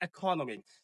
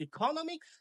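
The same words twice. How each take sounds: First: "ইকোনমিক্স" as eh-ko-no-miks, falling; second pronunciation. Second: "ইকোনমিক্স" as ee-KO-no-miks, high and rising; first pronunciation. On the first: Teacher offers the alternative, "ইকোনমিক্স" pronounced eh-ko-no-miks. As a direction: eh start on "ইকোনমিক্স". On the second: Teacher offers learners a choice, "ইকোনমিক্স" pronounced high as ee-KO-no-miks. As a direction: ee start on "ইকোনমিক্স", pitched up. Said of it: "আপনি পড়তে পারেন". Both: Shown as a demonstration.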